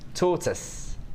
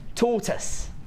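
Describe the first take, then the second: First: It is said in a London accent. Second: The same.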